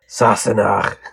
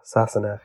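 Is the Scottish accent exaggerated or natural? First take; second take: exaggerated; natural. First: Said in a put-on, exaggerated Scottish accent. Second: Said in a plain, everyday accent. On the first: "when you do a Scottish accent" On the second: "That was Sassenach"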